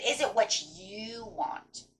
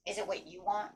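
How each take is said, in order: First: Drawn-out "Is it what you want?"; emphatic question. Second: Soft repeated question. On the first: Reader voices Spirit questioning the listener, emphatic slow question. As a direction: ask "Is it what you want?" slowly, stretching the words. Rhetorical question, repeated for effect. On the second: Reader repeats Spirit's question to the listener, soft and reflective. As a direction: let the question land quietly after a pause. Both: Acted.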